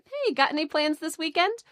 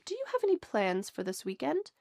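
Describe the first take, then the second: First: It is said in a relaxed, casual tone. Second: It is said in a serious, formal tone.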